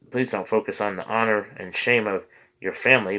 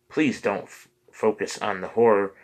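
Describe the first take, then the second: First: "honor" clearly said as honor after a slip; carefully restating "honor" the right way; corrected reading. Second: "horror" read by mistake for honor, with a cut-off start; stumbling over "horror" as if it were honor; misread word. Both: Real, not acted.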